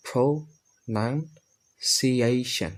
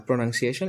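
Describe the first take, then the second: First: প্রনাউন্সিয়েশন very slow, broken up as "pro-nan-si-ay-shan"; new pronunciation. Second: প্রনাউন্সিয়েশন run together, ending in rising "shon"; old pronunciation. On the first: Teacher models for learners, প্রনাউন্সিয়েশন slowly as "pro-nan-si-ayshan". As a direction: say প্রনাউন্সিয়েশন piece by piece, falling on "shan". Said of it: "এখন আমরা একটা উচ্চারণ করব". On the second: Teacher recalls the old habit, প্রনাউন্সিয়েশন as "pronangsieshon". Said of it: "এটা আগে আমরা বলতাম". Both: Shown as a demonstration.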